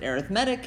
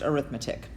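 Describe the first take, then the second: First: The stress is on the third syllable. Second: The stress is on the second syllable. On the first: The word is used as an adjective. "when that word is a adjective or an adjective, you pronounce it" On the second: The word is used as a noun. "when it's a noun, it's pronounced"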